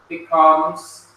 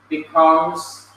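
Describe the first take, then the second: The two takes are said the same way.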